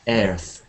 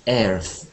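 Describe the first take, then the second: First: The vowel sounds like the one in chair. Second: The same.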